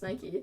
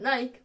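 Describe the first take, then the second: First: It is two syllables, ending in an ee sound. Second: It is one syllable, rhyming with bike. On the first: The speaker calls it right. "Nike has said that it's pronounced Nike" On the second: The speaker calls it wrong. "she pronounces it Nike, which is wrong"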